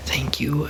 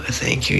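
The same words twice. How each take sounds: First: Soft high whisper. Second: Said in the usual way. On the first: Real, not acted. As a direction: breathe the thanks out. Whispered thanks beside plain one.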